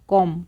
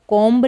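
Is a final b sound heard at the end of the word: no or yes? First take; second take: no; yes. First: The word ends without any b sound. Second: The word ends with an audible b sound. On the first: The speaker calls it right. "बी यहाँ पर silent है तो इसको हम कॉम पढ़ते हैं" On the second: The speaker calls it wrong. "यहाँ पर द कॉम्ब नहीं बोलेंगे"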